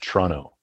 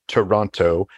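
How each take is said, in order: First: The second T is dropped, Canadian style. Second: The second T is clearly pronounced.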